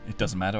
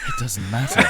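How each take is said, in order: First: It is said in a plain voice. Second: It is said in a sexy, sultry voice.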